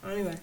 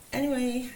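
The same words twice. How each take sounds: First: Said in the usual way. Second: "anyway" pitched high and louder; brisk reset. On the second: Real, not acted. Reader pulls herself back to the cards, "anyway" raised high. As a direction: lift "anyway" up high to move on. Repeats it to move on.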